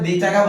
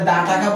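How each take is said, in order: First: 'The' is said with a long 'ee' vowel. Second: 'The' is said with a short 'uh' vowel. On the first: The speaker calls it wrong. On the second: The speaker calls it right.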